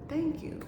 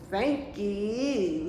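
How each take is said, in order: First: It is said warmly and sincerely. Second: It is said in a sarcastic tone.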